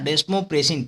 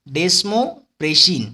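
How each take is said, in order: First: Said in the usual way. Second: Desmopressin slowly in two parts, desmo then pressin; broken-down word. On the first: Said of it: "प्रेशर से प्रेसिन याद आएगा". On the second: Shown as a demonstration. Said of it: "दे से डी और स्मेल से smo".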